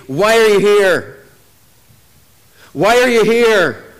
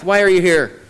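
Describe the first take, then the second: First: Slow, louder taunt, each word drawn out; Goliath taunting. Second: Said in the usual way. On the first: Retold or imitated. Goliath taunting the army morning and night, slow louder taunt. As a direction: lean on the giant's daily challenge, slow and louder. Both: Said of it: "statements of Goliath".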